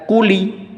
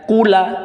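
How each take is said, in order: First: The word ends with an added i vowel. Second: The word ends with an added a vowel. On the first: "tidak dibaca kuli" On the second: "tidak dibaca kula"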